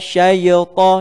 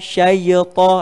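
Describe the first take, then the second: No difference in how they are said.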